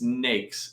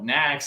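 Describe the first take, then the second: First: The word rhymes with snakes. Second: The word does not rhyme with snakes. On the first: The speaker calls it right. "it's pronounced NAICS like snakes" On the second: The speaker calls it wrong. "I used to call it NACS"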